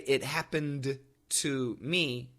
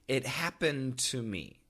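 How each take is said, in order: First: The D in happened is clearly released. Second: The D links into the following T. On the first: The speaker calls it wrong. "we don't say" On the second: The speaker calls it right. "We say"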